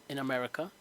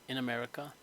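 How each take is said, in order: Both takes have the same delivery.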